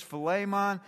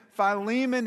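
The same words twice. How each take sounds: First: Philemon said fuh-LAY-mon; short first vowel in Philemon, stressed LAY; English pronunciation. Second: Philemon said fy-LEE-mun; long I in Philemon, stress on LEE; Greek pronunciation. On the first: Pastor explains to congregation, Philemon the English way, fuh-LAY-mon. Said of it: "The English pronunciation is". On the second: Pastor explains to congregation, Philemon the Greek way, fy-LEE-mun. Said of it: "is the Greek pronunciation". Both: Shown as a demonstration.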